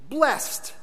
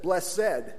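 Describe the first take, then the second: First: The word is said with one syllable. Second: The word is said with two syllables. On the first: The speaker calls it right. "It's simply blessed" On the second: The speaker calls it wrong. "I have added a syllable that's not there"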